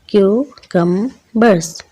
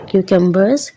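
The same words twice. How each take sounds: First: क्यूकम्बर्स slowly split as क्यू-कम-बर्स; syllable by syllable. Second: Said in the usual way. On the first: Shown as a demonstration. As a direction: break क्यूकम्बर्स into three separate beats, kyu-kum-bers. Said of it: "इसको हम अगर break करें syllables में". (क्यूकम्बर्स को syllables में तोड़कर, क्यू-कम-बर्स) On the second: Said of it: "इसको हम अगर ब्रेक करें".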